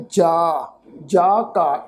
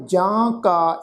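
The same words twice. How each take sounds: First: "ਜਾ ਕਾ" with a long, un-nasalised aa; careful demonstration of "ਜਾ ਕਾ" without nasalisation; oral vowel. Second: "ਜਾਂ ਕਾ" with a nasal aa in the first word; nasalised vowel. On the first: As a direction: say "ਜਾ" open, no nasal ending. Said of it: "ਉਹ ਅਸੀਂ ਉਚਾਰਨ ਕਰਨਾ ਹੈ". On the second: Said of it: "ਉੱਪਰ ਬਿੰਦੀ ਲਗਾ ਕੇ ਪਾਠ". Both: Shown as a demonstration.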